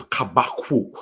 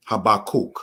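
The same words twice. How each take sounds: First: "Kabakuk" with a throaty opening sound, ka-ba-KOOK; Hebrew pronunciation. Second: Said in the usual way. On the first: Shown as a demonstration. Teacher showing students how Habakkuk is pronounced, "Kabakuk" as kha-ba-KOOK. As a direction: say "Kabakuk" the Hebrew way, long oo in the last syllable. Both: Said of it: "which is pronounced as".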